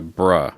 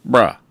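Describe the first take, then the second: First: Said in the usual way. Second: "bruh" punched out louder as a fed-up dog; exasperated bruh. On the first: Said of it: "I'd translate that into". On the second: Shown as a demonstration. Owner replaying the dog's bark, a loud exasperated "bruh". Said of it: "listen to that again".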